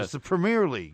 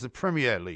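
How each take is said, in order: First: Premier is pronounced in an American way. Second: Premier is pronounced in a British way. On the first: The speaker calls it wrong. "Because in America, that's how you pronounce it" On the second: The speaker calls it right. "would you mind just referring to it as"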